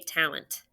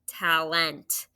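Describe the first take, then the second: First: The second syllable has a weak schwa vowel. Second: The second syllable has a full, clear E vowel. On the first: The speaker calls it right. "We just say talent. It's a schwa" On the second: The speaker calls it wrong. "Even though we don't really say talent"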